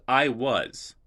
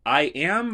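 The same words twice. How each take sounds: First: "I was" with was leaned on; stress on WAS. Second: "I am" said higher and louder, am punched; stress on AM. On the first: Teacher sets I was against I am, pressing was. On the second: Teacher sets I am against I was, punching am. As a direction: hit "am" hard. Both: Shown as a demonstration. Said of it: "and the tense of a verb".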